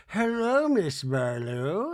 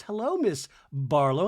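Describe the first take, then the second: First: Meredith. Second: Returned greeting, brisker, with playful lilt; Heather. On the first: Meredith greeting Heather dressed as Lisa, slow singsong mimicry. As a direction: stretch the greeting in a playful Lisa send-up. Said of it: "dressed like Lisa and says to Heather". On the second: Heather answering costumed Meredith, brisker playful greeting. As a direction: greet her back in a lightly mimicked voice. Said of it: "And Heather goes". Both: Retold or imitated.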